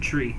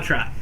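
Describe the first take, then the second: First: The vowel sounds like the word 'tree'. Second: The vowel sounds like the word 'try'. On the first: The speaker calls it wrong. "Why would you pronounce it tree?" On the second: The speaker calls it right. "It's called try"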